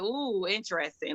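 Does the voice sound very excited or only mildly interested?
mildly interested. It sounds only mildly interested. The speaker only somewhat likes the animal. "if you kind of like it"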